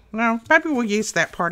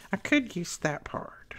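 First: Said in the usual way. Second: Soft, slow whisper to herself; whispered musing. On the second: Real, not acted. Crafter musing to herself over paper, whispered. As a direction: think it over under your breath.

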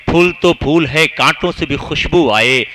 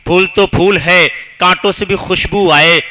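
No difference in how they are said.

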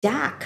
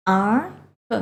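First: Said in the usual way. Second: "dark" broken into "ar" and "kuh"; sounded out. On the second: Shown as a demonstration. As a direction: sound out "dark" piece by piece for pupils. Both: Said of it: "คำนี้อ่านว่า".

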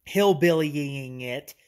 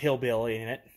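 First: "Hillbillying" stretched out slowly, with extra wobbly syllables at the end; playfully drawn out. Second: Said in the usual way. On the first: Pretend. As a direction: drag out "Hillbillying" for comic effect, half speed. Repeats own word in jest.

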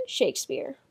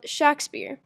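First: Said in the usual way. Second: Shakespeare said as SHACK-speer; short A, as in shack, in Shakespeare; variant pronunciation. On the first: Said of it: "believed it to be spelled and pronounced". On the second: Shown as a demonstration. Narrator giving the editors' spelling, Shakespeare said SHACK-speer. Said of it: "They believed it to be spelled".

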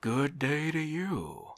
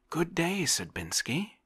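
First: Official's reply. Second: Bright, much higher and louder hello; cheerful greeting. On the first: Visitor answers Oblomov's greeting. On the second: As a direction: call out gladly to a welcome friend. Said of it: "cried Oblomov cheerfully". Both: A narrator's reading.

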